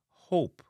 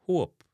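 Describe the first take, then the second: First: "hope" with an English "oh" vowel; English pronunciation. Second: "hope" said as "huop"; Jamaican pronunciation. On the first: Teacher giving the English word first, English long O in "hope". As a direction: say hope as "hohp". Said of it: "hope in a English". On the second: Teacher giving the Jamaican version, "uo" in "hope". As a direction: give hope the Jamaican "uo" glide. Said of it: "in a Jamaican". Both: Shown as a demonstration.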